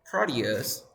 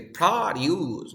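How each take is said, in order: First: Produce said pro-DUCE; pro-DUCE, end-stressed produce; stress on second syllable. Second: Produce with a heavy, drawn-out PRO; PRO-duce, front of produce hit hard; stress on first syllable. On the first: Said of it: "No, no, it's produce". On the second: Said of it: "you must stress the first one". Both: Shown as a demonstration.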